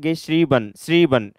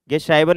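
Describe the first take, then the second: First: "गे श्रीबन" with a long ee, then "श्रीबन" repeated; correct pronunciation. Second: "गे श्राइबन" with an "eye" vowel in the middle; wrong pronunciation. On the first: Teacher showing how it is read, long-ee "गे श्रीबन". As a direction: say "श्रीबन" as shree-ban. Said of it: "इसको पढ़ते हैं". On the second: Teacher warning how not to read it, "गे श्राइबन" with eye vowel. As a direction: say "गे श्राइबन" as ge-shry-ban. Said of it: "नहीं पढ़ते". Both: Shown as a demonstration.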